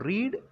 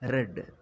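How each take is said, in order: First: The vowel is a long 'ee' sound. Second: The vowel is a short 'e' sound. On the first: The action happens now or habitually. "ரீட் அப்படின்னா present tense" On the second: The action is already finished. "ரெட் அப்படின்னு வாசிக்கணும்"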